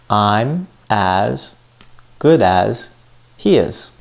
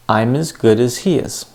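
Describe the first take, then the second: First: "I'm as", "good as", "he is" said separately with pauses; broken into chunks. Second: "I'm as good as he is" flowing as one phrase, "as" reduced to "iz"; linking and reductions together. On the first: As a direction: spell out "I'm as... good as... he is" piece by piece. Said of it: "I said". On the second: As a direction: join it up smoothly, weak "as", weight on "good" and "he". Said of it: "Put it together". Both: Shown as a demonstration.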